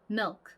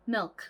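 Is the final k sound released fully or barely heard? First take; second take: barely; barely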